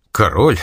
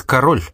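First: «Король?» rising, a touch louder, amazed; surprised question. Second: Said in the usual way. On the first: A narrator's reading. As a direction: echo «Король?» with a lifted questioning tone. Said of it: "спросила она подозрительно". («Король?» с удивлённым подъёмом) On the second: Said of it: "Рекс в переводе с латинского означает".

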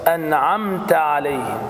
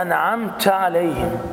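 First: Slow أنعمت عليهم with the ta clear and open; the right way to say أنعمت; correct أنعمت. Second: Slow أنعمت عليهم said in a local dialect way, clipped to "nʕamt"; dialect form. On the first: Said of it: "فتنطق هكذا". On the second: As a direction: show the dialect variant. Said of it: "بعضهم يقرأها هكذا". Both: Shown as a demonstration.

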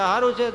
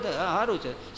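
First: Bright reply. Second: Muted reply. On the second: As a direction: let the "સારું છે" sink quietly. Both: Retold or imitated. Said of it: "કેમ છો કાંતા?".

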